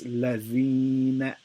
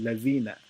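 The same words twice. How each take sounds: First: The long vowel is stretched for two beats. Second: The long vowel is cut short. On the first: The speaker calls it right. "I'm stretching it for two harakas" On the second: The speaker calls it wrong. "The wrong way to say it would be"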